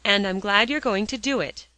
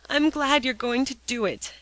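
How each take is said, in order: First: Firm and unbending, louder; stern, unyielding order; inflexible dictation. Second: Higher, mournful repeat; glum, reluctant echo; dismal echo. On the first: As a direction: dictate each word, no give. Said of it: "dictated Polly inflexibly". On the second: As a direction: echo it back in misery. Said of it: "echoed Alexia in a dismal tone". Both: A narrator's reading.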